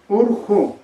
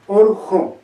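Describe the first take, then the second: First: The vowels are closed, sounding like 'u'. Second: The same.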